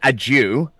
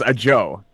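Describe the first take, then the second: First: The name ends with an 'oo' vowel. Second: The name ends with an 'oh' vowel. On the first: The speaker calls it wrong. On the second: The speaker calls it right. "but now I found out that it's a Joe"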